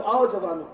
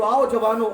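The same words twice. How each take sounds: First: Said in the usual way. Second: A loud sarcastic beckoning; louder ironic invitation; loud mock call. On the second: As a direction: call out loudly to the youth. Mock welcome to the youth.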